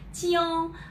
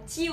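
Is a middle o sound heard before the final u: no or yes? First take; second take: yes; no. First: It is said with a middle o sound. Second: It is said without a middle o sound. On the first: The speaker calls it right. "mình phải đọc là chiu" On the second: The speaker calls it wrong. "Người Việt rất dễ đọc là chiu"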